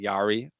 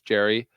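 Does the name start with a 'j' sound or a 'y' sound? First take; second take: y; j. First: The name starts with a 'y' sound. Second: The name starts with a 'j' sound. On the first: The speaker calls it wrong. "I've been saying wrong" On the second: The speaker calls it right. "apparently it's Jerry"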